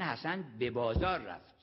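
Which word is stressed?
بازار. The stress is on bazaar.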